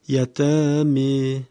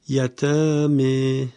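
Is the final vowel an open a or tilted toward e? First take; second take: tilted e; tilted e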